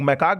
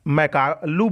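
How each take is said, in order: First: "मैकाक" ending in a hard k; alternative pronunciation. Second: "मैकालू" ending in an open -लू; alternative pronunciation. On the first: Teacher showing students how others say it, "मैकाक" ending in "kaak". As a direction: say "मैकाक" as two syllables, closed on "kaak". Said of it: "कुछ लोग मैकाक बोलते हैं". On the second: Teacher showing students how some people say it, "मैकालू" ending in "loo". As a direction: say "मैकालू" with a final "loo" syllable. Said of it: "कुछ लोग मैकालू बोलते हैं". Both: Shown as a demonstration.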